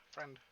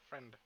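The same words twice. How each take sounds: The two takes are said the same way.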